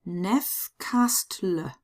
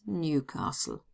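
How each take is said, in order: First: The name is read with German letter sounds. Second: The name is read with English letter sounds. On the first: "pronounce them in German" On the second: "better known as Newcastle"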